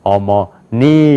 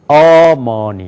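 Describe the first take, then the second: First: The stress is on the third syllable. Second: The stress is on the first syllable. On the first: "그 다음에" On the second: "앞에가 강조가 되면은"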